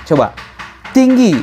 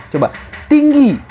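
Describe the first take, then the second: Both takes have the same delivery.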